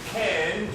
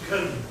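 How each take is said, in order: First: The vowel is a full, strong short A. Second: The vowel is weakened into a small, reduced sound. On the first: The word is said by itself. "with a strong, short A sound" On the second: The word is said inside a natural sentence. "it becomes smaller"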